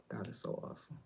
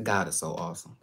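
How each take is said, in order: First: Breathy whisper of the same praise. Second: Said in the usual way. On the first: Shown as a demonstration. Whispering God is so awesome after saying it aloud. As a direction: drop to a whisper.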